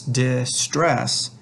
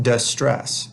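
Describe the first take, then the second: First: "distress" said slowly, second syllable stressed. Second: "distress" said slowly, first syllable stressed; wrongly placed stress. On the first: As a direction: stretch out "distress", leaning on the STRESS part. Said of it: "stress of this word is on the second syllable". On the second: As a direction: stretch out "distress", punching DIS instead of STRESS. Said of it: "not distress". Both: Shown as a demonstration.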